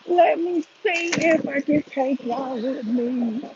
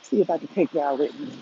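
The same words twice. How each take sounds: First: Slow, higher, drawn-out singsong; slow sing-song. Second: Said in the usual way. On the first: Real, not acted. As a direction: stretch every word out playfully. Repeats phrase, second drawn out.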